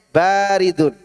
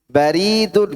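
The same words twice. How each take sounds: First: The first vowel is drawn out long. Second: The first vowel is kept short. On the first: It means cold. "Dinginnya dipanjangkan baknya" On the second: It means post office. "kantor pos"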